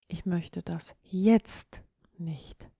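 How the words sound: The stress falls on the word jetzt. The speaker does not want it now, maybe later. "du möchtest es augenblicklich nicht"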